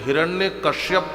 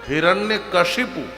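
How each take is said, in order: First: The second part is said as kashyap. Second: The second part is said as kashipu. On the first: The speaker calls it wrong. "कुछ हिरण्य कश्यप कहते हैं" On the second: The speaker calls it right. "शुद्ध नाम है हिरण्य कशिपु"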